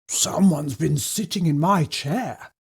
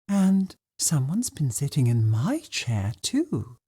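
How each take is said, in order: First: It is said in a deep, growly voice. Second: It is said in a soft, gentle voice.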